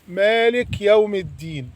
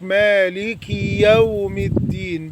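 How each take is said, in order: First: The k has no vowel after it. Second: The k is followed by a long ee. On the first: "هذا خطأ" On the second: "بيزود الكسرة فيتولد عنها ياء"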